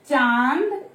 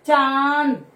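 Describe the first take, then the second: First: "चांद" with the vowel ringing through mouth and nose; nasal demo. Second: "चांद" with a louder, fully nasalised a; louder nasal demo. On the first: Teacher letting kids hear the nasal sound. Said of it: "इसकी sound ही देखो". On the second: Teacher repeating the word so kids hear the nasal. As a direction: make the nose buzz on "चांद". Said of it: "मुंह और नाक दोनों vibrate होते हैं". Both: Shown as a demonstration.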